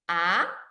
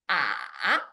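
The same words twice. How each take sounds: First: The pitch starts middle and rises high. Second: The pitch dips low, then rises again. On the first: "It starts middle and goes up high" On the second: "It starts middle low and dips down low and then up to middle high"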